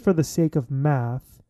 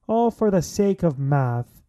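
First: Said in the usual way. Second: Playful, drawn-out Irish lilt; mock Irish accent. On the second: Host riffing on the sake of math, mock Irish accent. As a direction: repeat it in a bad Irish accent. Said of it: "it sounded like an Irish".

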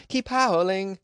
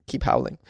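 First: Pitched up, cheering them on; high excited call. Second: Chuckling, breathy and amused; laughing. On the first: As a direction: raise the pitch, sing it out. Repeats the urging call, higher. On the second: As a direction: keep howling through a laugh. Laughing while urging listeners to howl. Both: Real, not acted.

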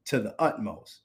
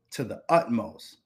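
Both takes have the same delivery.

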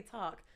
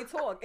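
First: "Talk" with an open standard vowel, like "tahk"; plain standard "Talk", not Brooklyn. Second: "Talk" with a rounded Brooklyn vowel, like "tawk". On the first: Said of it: "We don't say". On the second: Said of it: "I literally say". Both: Shown as a demonstration.

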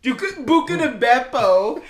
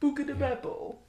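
First: Fake Italian. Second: Mock Italian, higher; exaggerated fake Italian accent. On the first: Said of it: "fake Italian gibberish". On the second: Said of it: "Does it not sound like fake Italian gibberish?".

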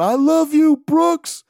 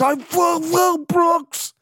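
First: High, loud mock sob-yell; imitating a sobbing yell. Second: High, slow, strained crying shout; mock sobbing wail. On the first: Crying fan yelling to Brooks, high loud sob-yell. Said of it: "I think he was trying to yell out". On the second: Fan sobbing his love for Brooks, slow high wail. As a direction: blubber the words out through tears. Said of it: "he was crying so hard".

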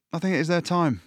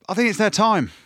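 First: Said in the usual way. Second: Much higher and louder, fired up; a fan sure it's finally Ireland's year; excited. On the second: Real, not acted. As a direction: blurt it out with real excitement. Excited prediction of Ireland win.

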